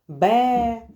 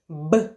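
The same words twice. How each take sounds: First: It is said as the full letter name. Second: It is said as a bare consonant sound. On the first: The speaker calls it wrong. "Ні, не так" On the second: The speaker calls it right. "Ми кажемо лише звуки, не букви, не назви букв"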